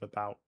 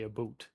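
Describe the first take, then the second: First: Said in the usual way. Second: "a boot" said with the Canadian ou, like a boot. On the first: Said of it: "instead of". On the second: Shown as a demonstration. Mocking how Canadians supposedly say "a boot". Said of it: "heard me say".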